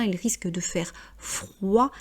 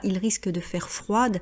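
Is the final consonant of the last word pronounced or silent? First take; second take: silent; pronounced. First: The final consonant of the last word is silent. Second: The final consonant of the last word is pronounced. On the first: The speaker calls it right. "on ne prononce généralement pas la dernière euh, consonne" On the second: The speaker calls it wrong. "on ne dit pas"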